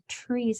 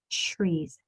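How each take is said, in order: First: The word begins with a clear t sound. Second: The word begins with a ch sound. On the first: The speaker calls it right. "they should be trees" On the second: The speaker calls it wrong. "and not trees"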